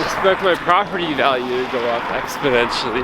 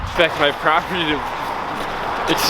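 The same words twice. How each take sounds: First: Numb cold lips, careful retake; frozen lips. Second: Cold stiff lips, words slurred; frozen lips. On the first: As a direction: push the words out through frozen lips. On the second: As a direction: speak through lips numb with cold. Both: Real, not acted. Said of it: "my lips are frozen".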